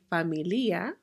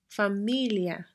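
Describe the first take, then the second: First: The 'i' is stressed and split from the 'a'. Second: The ending 'ia' blends into one unstressed syllable. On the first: The speaker calls it wrong. "we're not going to say familia" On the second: The speaker calls it right. "we pronounce them together as one syllable"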